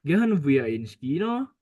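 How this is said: The voice rises at the end.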